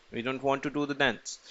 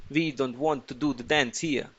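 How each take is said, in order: First: Said in the usual way. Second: Mock Russian accent, badly faked; horrible Russian accent. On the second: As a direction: put on a hammy Russian accent. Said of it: "that's a horrible Russian accent".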